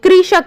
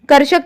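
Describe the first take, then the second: First: The word begins with the sound 'kri'. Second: The word begins with the sound 'kar'. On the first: The speaker calls it right. "री की मात्रा लगी हुई है तो री बोलेंगे" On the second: The speaker calls it wrong. "बच्चे इसे कर्षक कहने लगते हैं"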